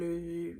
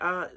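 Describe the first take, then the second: First: The filler is a French-style rounded 'euh' sound. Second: The filler is an English-style 'uh' sound. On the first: It sounds like a native speaker. The speaker calls it right. "they say euh" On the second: It marks the speaker as a non-native. The speaker calls it wrong. "French people don't say uh"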